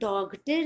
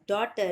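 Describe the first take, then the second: First: A g sound is heard before the t. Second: No g sound is heard before the t. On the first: The speaker calls it wrong. "इसे डॉगटर नहीं बोलेंगे" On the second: The speaker calls it right. "It's डॉटर"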